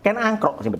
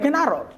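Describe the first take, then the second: First: The second name is said as Angkrok. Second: The second name is said as Arok. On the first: The speaker calls it right. "Yang betul itu Ken Angkrok" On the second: The speaker calls it wrong. "Bukan Ken Arok"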